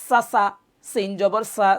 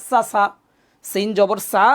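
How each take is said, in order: No difference in how they are said.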